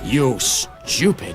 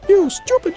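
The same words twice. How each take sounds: First: It is said in a harsh authoritarian voice. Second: It is said in a squeaky Mickey Mouse voice.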